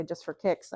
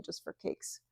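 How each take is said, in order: First: Said in the usual way. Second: "just for cakes." whispered, unvoiced, with cakes for kicks; whispered slip saying "cakes". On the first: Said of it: "every time I wanna say". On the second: Shown as a demonstration. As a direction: breathe out "cakes" as a sheepish slip. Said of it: "I end up saying".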